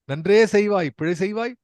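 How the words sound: It is said as a question, rising.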